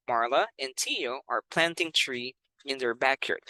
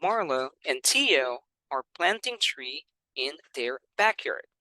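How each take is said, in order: First: Said in the usual way. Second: "Marla and Tio are planting tree in their backyard" read slowly; slow model reading. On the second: Shown as a demonstration. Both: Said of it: "and then also the speed".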